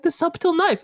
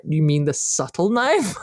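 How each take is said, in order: First: "subtle" with a sounded b, pitched high; SUB-tul for "subtle", high and insistent; mispronounced subtle. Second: "subtle" as SUT-ul, silent b, slowly; parents' slow correction, "subtle" without the b; corrected subtle. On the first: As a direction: say "subtle" wrongly with a hard b. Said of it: "I used to say the subtle knife". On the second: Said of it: "And they're like". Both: Retold or imitated.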